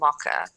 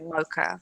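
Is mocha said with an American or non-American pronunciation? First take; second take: non-American; American. First: It is said with the speaker's own non-American vowels. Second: It is said with an imitated American pronunciation. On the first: "we say mocha" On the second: "you guys say mocha"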